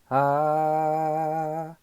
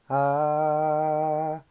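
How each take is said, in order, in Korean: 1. 이 모음은 들리는 숨소리가 섞여 있어요. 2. 이 모음은 들리는 숨소리가 섞여 있어요.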